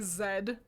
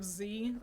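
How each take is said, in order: First: The letter is said as zed, ending in d. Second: The letter is said as zee, ending in ee. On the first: This is the Canadian and European way. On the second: This is the usual way elsewhere.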